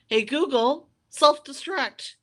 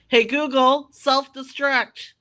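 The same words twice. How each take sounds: First: It is said at a normal, softer volume. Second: It is said at a louder volume.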